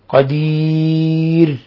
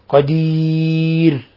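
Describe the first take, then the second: No difference in how they are said.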